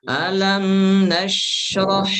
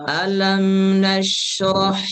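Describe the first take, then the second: The two takes are said the same way.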